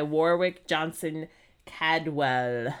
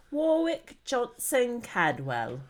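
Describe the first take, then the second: First: Said in the usual way. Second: Slow, higher-pitched mock British; British accent. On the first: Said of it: "that's a name you have to say". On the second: Co-host showing how the artist's name must sound, British accent. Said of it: "say with a British ac-, accent".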